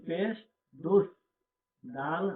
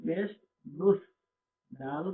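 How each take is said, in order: Both takes have the same delivery.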